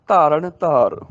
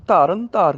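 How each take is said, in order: First: ਧਾਰਨ ending in retroflex ṇ; retroflex nasal. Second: ਧਾਰਨ with dental n; tongue on teeth for the n of ਧਾਰਨ; wrong nasal demo. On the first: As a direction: curl the tongue back for ṇ in ਧਾਰਨ. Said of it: "ਰਾਣੇ ਨਾਲ ਬੋਲਣਾ ਹੈਗਾ". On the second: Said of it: "ਨੰਨੇ ਨਾਲ ਨਹੀਂ". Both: Shown as a demonstration.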